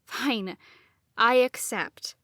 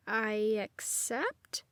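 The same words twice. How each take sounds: First: Firm falling I accept; serious. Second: Soft, slow rising uncertain accept; questioning. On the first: Nadine answers the ritual again, now serious. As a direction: settle it down with a falling end. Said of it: "made my voice serious". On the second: Unsure, Nadine answers the mock ritual with rising doubt. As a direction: let accept lift like a question. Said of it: "I said it like a question". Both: A narrator's reading.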